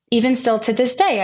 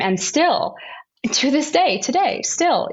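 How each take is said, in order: First: Said in the usual way. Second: Hushed whisper. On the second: Real, not acted. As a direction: whisper it, higher and pointed. Emphatic point about pro-choice stigma.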